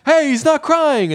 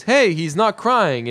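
First: Much higher, slow, panicky exclamation; terrified Chandler. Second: Higher, slow and drawn-out mock delight; pleasantly surprised cooing. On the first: Retold or imitated. Terrified friend as Monica holds the baby, high-pitched panic. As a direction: imitate terror with a high, stretched cry. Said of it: "Chandler at this point is terrified". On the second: Monica holding baby Ben, pleased and cooing. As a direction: coo it slowly, pitched up.

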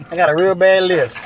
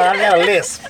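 First: "real bad" drawn out slowly with a laugh; stress on real bad. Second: Said in the usual way. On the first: Real, not acted. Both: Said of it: "I done got a lisp".

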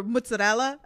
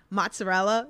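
First: "mozzarella" starting "moots", with tapped r; Italian-American pronunciation. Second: "Mozzarella" with an open "mots" first syllable; contrasted pronunciation. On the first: Italian speaker showing own way, "mozzarella" as moots-a-rella. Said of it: "it's like that Italian". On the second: Giving two ways to say it, "Mozzarella" as mots-a-rella. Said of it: "I say things very different". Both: Shown as a demonstration.

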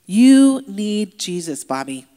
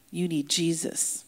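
First: "You need Jesus" drawn out slow and much louder; insistent urging. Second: Said in the usual way. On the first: Retold or imitated. Inmates pressing Bobby about Jesus, loudly insistent. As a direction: hammer "You" loud and long, then stretch "need Jesus".

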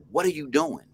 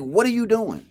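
First: Lightly voiced woman, higher, calm but firm; woman's stern question. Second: Imitating the woman, much higher and louder; woman's sharp question. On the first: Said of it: "And she said". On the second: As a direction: repeat her challenge with more bite. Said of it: "It was like".

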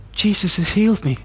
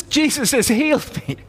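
First: Said in the usual way. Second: High-pitched, astonished echo; retold amazement. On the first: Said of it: "I whisper into his ear". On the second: Healed man repeating the words whispered to him, amazed. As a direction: repeat it in stunned, high-voiced wonder. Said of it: "He says".

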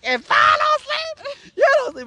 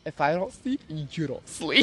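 First: Very high, drawn-out retold ultimatum; hammed-up high-pitched yell; shrieked threat. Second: Low, softer retold ultimatum; measured, menacing re-enactment; quiet threat. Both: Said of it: "And I'm like".

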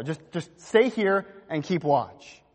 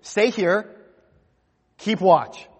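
First: "Just, just stay here and keep watch" drawn out slowly; slow, pleading read. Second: Louder, firm command to stay and keep watch; firm charge. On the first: Shown as a demonstration. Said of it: "In verse thirty-four". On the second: Retold or imitated. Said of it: "he charges them".

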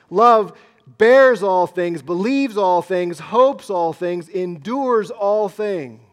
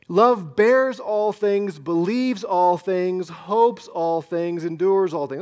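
First: Slow and much louder, bears, believes, hopes, endures hammered; proclaimed loudly. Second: Slow, each verb stressed: bears, believes, hopes, endures; stressed recitation. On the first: Pastor proclaiming the verse to the church, loud and slow. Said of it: "Those are huge statements". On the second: Pastor reading the verse to the congregation, slow and stressed. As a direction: lean on every verb as you read the verse. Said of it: "It's four things, isn't it?". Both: Shown as a demonstration.

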